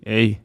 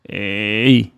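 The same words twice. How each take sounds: First: The throat is squeezed only lightly. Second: The throat is squeezed hard and exaggerated. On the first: "then you can lighten it and just say eh" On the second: "I'm exaggerating for you to hear"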